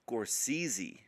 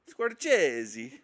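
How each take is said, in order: First: The middle consonant is a plain 's'. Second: The middle consonant sounds like 'ch'. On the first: The speaker calls it right. "Scores easy, it says" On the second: The speaker calls it wrong. "I bet it's actually Scorchese"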